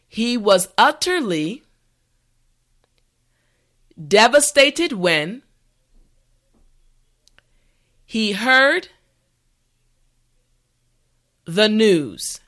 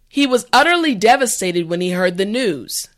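First: The sentence is said slowly and carefully. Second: The sentence is said at a natural speed. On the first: "this time repeat after me" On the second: "the last time at a regular pace"

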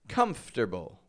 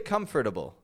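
First: It is reduced, sounding like comfter-ble. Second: It is said in full with every syllable. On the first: The speaker calls it right. "I pronounce it as if it's comfter" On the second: The speaker calls it wrong. "I don't say comfortable"

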